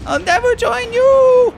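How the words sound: It is said in a put-on anime character voice.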